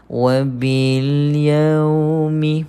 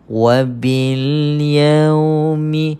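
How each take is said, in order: Both takes have the same delivery.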